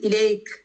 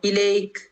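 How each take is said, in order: No difference in how they are said.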